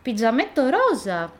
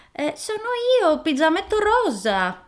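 First: Put-on higher, brighter little girl answering; girl's own voice. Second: Much higher fake little girl voice; the wolf squeaks high to pass for the girl; wolf disguising voice. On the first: Girl tells the wolf her name in her own higher child's voice. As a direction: say your name like an innocent child. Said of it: "rispose lei". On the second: Wolf fools grandma at the intercom, faking a much higher girl's voice. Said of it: "disse il lupo cambiando la sua voce".

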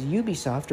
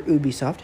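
First: Said in the usual way. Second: Ubisoft starting OO, with no y sound; alternate pronunciation. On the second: Shown as a demonstration. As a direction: Ubisoft with first syllable "oo" rather than "you". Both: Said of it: "however you wanna pronounce it".

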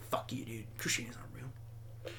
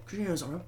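First: Very soft, half-whispered jab; mock muttered heckling. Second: Said in the usual way. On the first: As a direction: say it under your breath, low and hushed. Acting out a heckler's quiet insult.

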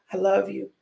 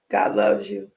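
First: Said in the usual way. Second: Deep voice. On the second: Acted. Repeated God loves you line.

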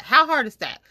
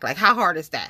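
First: Higher, louder exasperated question; exasperated repeat. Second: Said in the usual way. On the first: Real, not acted. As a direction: throw up your hands as you repeat it.

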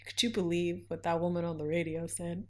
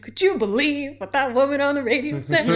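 First: Said in the usual way. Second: Singsong, louder, higher gossip; mock indignant gossip. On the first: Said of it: "people have been like". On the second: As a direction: sing it out like a scandalized friend. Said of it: "I'm like".

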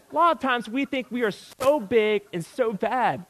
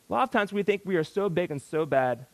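First: Higher, louder first take of the line; A lot of times said high and loud; emphatic. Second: Said in the usual way. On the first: Shown as a demonstration. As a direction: press it home, stressing lot.

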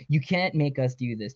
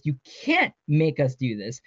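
First: Said in the usual way. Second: "can't" drawn out with emphasis; defiant, stretched "can't"; stress on can't. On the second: A narrator's reading. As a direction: lean hard and slow on "can't". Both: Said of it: "she yelled at the speaker".

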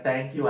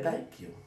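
First: Said in the usual way. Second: Higher, softer, sing-song thank you; a little lilting thanks upward; light thank you. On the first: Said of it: "As long as I'm saying". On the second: Retold or imitated. Thanking God lightly, higher and softer. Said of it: "I'm always saying".

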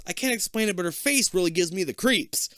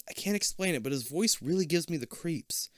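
First: Higher teasing mimicry of a friend. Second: Said in the usual way. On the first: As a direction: tease her, echoing her words. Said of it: "Kip teases".

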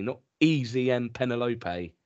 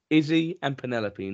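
First: "Easy" said EE-zee with a long e; wrong name. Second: "Izzy" said IZ-ee with a short i; correct name. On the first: Husband quoting the wife's wrong name "Easy" as EE-zee. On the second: Husband setting right the name "Izzy" as IZ-ee. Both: Shown as a demonstration.

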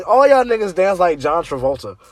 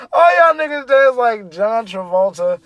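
First: Said in the usual way. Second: Louder, laughing through the punchline; laughing shout. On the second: Real, not acted. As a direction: shout it while cracking up. Repeated punchline while laughing.

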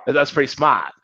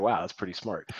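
First: Put-on playful Massachusetts accent on "smart"; Boston accent. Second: Said in the usual way. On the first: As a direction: drop the R in "smart", Boston style. Film's Massachusetts accents, r dropped.

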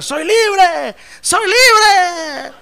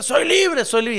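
First: High, drawn-out mock scream; loud, hammed-up wail of joy; chicken's cry of freedom. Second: High, toned-down mock yell; lightly imitated cry, pitched up; retold cry of freedom. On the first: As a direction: yell it like a chick carried off in the air. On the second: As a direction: echo the cry lightly, without full volume. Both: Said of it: "empezó a gritar".

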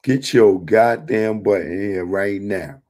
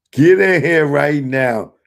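First: Said in the usual way. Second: Loud, higher call to come in. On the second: Real, not acted. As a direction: yell it across the room. Calling the viewer into the stream.

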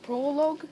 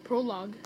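First: "prologue" ending in a long-o "logue", asked as a question; "prologue" with a long o in both halves; unsure pronunciation. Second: "Prologue" ending in "log", falling tone; "Prologue" with an open "ah" in the last half; corrected pronunciation. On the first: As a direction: try "prologue" as PRO-lohg, unsure. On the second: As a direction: say "Prologue" as PRO-lahg, settled. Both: Shown as a demonstration. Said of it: "I think it was called prologue".

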